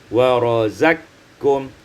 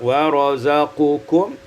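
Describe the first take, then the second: First: The q is merged into the k. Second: The q is said separately before the k.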